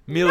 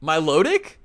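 First: It is said like a Slavic surname ending '-ich'. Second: It is said like an ordinary English word. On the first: The speaker calls it wrong. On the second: The speaker calls it right.

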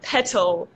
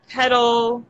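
First: The middle T is a strong, crisp T. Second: The middle T sounds like a soft D. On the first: "you say the T sounds really strongly, like" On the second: "the flap T sound, which is when you replace a T with a D. So we say it a lot"

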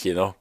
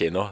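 First: The first sound is said in a careful, deliberate way. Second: The first sound is said in a casual, unreflected way. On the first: The speaker is paying attention to their speech. "hvis de tenker over hva de sier, så sier de kino" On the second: The speaker is not paying attention to their speech. "hvis de ikke tenker over hva de sier, så sier de kino"

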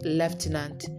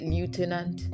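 First: The first syllable sounds like 'left'. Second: The first syllable sounds like 'loo'. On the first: The speaker calls it right. "they would walk on the left side" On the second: The speaker calls it wrong. "some people say lieutenant"

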